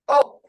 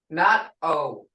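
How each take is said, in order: First: The vowel is short and blunt. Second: The vowel glides like an English vowel. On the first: The speaker calls it right. "you gotta say it with a blunt attitude" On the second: The speaker calls it wrong.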